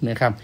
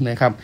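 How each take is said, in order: Both takes have the same delivery.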